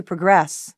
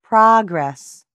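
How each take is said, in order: First: Progress as a verb, pro-GRESS; stress on second syllable. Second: Progress as a noun, PROG-ress; stress on first syllable. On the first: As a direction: stress the end of "progress", reduced first vowel. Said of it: "Verb, to progress". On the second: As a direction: punch the start of "progress", falling away. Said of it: "Noun, progress". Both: Shown as a demonstration.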